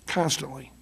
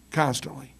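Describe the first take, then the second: No difference in how they are said.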